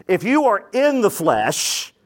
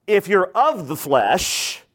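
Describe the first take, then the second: First: Said in the usual way. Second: Slow, with "of" leaned on and drawn out; stress on of. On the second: Shown as a demonstration. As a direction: hit the word "of" and take your time. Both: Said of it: "notice he didn't say he's in the flesh".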